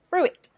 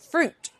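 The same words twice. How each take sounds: First: It is said as two syllables. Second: It is said as one syllable. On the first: The speaker calls it wrong. "not fruit" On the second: The speaker calls it right. "it's basically fruit"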